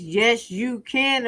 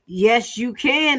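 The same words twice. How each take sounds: First: It is said in a Fat Albert impression. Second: It is said in the speaker's own voice.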